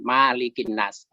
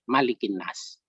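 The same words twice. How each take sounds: First: The first vowel is long. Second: The first vowel is short. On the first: It means the one who owns mankind. "banyak yang membaca dipanjangkan" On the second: It means the one who reigns over mankind. "dibaca pendek"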